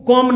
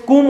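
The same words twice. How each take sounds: First: कॉम with open aw sound; wrong vowel. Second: कूम with long oo, silent b; correct vowel. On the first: Teacher naming what not to say, open-o कॉम. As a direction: say कॉम as kawm. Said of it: "कॉम नहीं बोलते". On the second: Teacher giving the right word for comb, long-oo कूम. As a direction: say कूम as koom. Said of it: "कूम होता है ये". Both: Shown as a demonstration.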